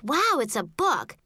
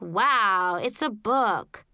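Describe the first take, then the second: First: It sounds excited and pleased. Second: It sounds bored and unimpressed.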